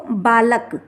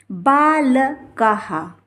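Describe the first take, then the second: First: बालक said slowly, ending on k with no breath after; without visarga. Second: बाल कहा drawn out slowly, ending in "ha"; visarga as ha. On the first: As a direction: say बालक bare, as "baa-lak". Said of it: "विसर्ग को छोड़ दिया जाए". (बालक, बिना विसर्ग के) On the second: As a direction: sound out बाल कहा as "baa-la-ka-ha". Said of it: "इसका उच्चारण हा होगा". (बाल कहा, विसर्ग का हा उच्चारण) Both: Shown as a demonstration.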